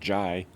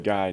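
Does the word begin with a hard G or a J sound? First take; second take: J sound; hard G. First: The word begins with a J sound. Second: The word begins with a hard G sound. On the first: The speaker calls it wrong. "not jai" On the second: The speaker calls it right. "I say guy"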